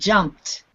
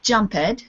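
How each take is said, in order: First: The ending is said as a short t sound. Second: The ending is said as an extra syllable. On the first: The speaker calls it right. "Yes, good" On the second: The speaker calls it wrong. "this is not jumped"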